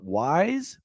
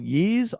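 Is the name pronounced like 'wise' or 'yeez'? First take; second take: wise; yeez. First: The name is said like 'wise', starting with w. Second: The name is said like 'yeez', without a w. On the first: This is the old way, read from the letter Y. The speaker calls it wrong. "I always used to call it Wise because it's a Y" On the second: This is the pronunciation others have given as correct. The speaker calls it right. "I've told the pronunciation of this particular franchise is called Yeez"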